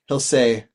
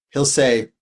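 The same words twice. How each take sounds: The two takes are said the same way.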